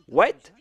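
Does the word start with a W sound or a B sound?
W sound. It begins with a W sound.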